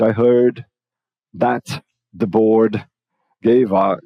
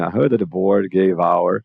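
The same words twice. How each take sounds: First: Word groups set apart by clear pauses; careful, broken-up teacher demo; slow and paused. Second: Words linked with no pauses, GAVE OUR run together; one joined-up phrase, GAVE flowing into OUR; connected speech. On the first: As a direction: say it deliberately, stopping after HEARD and BOARD. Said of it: "Ou eu vou falar pausadamente". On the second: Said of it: "aqui vai conectar o V aqui no A". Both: Shown as a demonstration.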